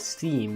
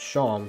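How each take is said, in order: First: The name rhymes with team and beam. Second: The name does not rhyme with team. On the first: The speaker calls it wrong. "I thought that this was pronounced as steam because it rhymes with team and beam" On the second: The speaker calls it right. "my name is pronounced Sham"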